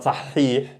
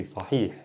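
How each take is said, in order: First: "صحيح" with the middle h doubled and held; wrongly emphasized. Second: "صحيح" softly, with a short middle h; quick, no emphasis. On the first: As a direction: overstress the ha inside "صحيح". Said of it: "It's not صحيح". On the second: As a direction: skim through "صحيح" without doubling the ha. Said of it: "I'm going quickly". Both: Shown as a demonstration.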